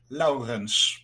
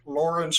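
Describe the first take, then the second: First: "Laurens" drawn out slowly with a hard Dutch r. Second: "Lawrence" said the English way; English pronunciation. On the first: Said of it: "hard Dutch R". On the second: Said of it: "introducing myself so many times in English". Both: Shown as a demonstration.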